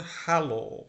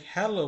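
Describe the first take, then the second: First: "হ্যালো" as "ha-lo", open a; German hallo. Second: "হ্যালো" with an English "he" at the start; English-style hello. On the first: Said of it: "জার্মানিতে এর উচ্চারণ সবসময় আ হবে". (German আ-উচ্চারণে "হ্যালো") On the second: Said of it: "তাহলে কিন্তু ভুল হলো". (ইংরেজি এ-উচ্চারণে "হ্যালো") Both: Shown as a demonstration.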